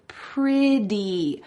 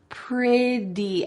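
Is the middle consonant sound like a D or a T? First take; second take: D; D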